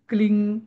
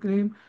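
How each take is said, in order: First: The word ends in a nasal ng sound. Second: The word ends in a closed m sound. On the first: The speaker calls it wrong. "त्याच्यात ते ह्रीं क्लिंग असं करण्यात अर्थ नाही" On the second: The speaker calls it right. "अनुस्वाराचा उच्चार नेहमी मच"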